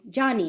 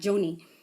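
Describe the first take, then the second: First: The first vowel sounds like in 'John'. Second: The first vowel sounds like in 'Joe'. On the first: The speaker calls it right. "we are going to pronounce her name Johnny" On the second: The speaker calls it wrong. "not Joni"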